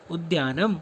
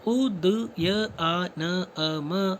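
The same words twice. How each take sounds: First: Said in the usual way. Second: उदयआनअम said very slowly, each sound separated; उदयआनअम pulled apart sound by sound, very slowly; split into sounds. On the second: Shown as a demonstration. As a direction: break उद्यानम into its sounds for the class.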